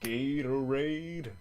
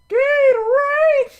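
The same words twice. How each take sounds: First: It is said flatly, with little energy. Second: It is said with more energy and excitement.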